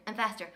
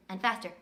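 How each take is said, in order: Both takes have the same delivery.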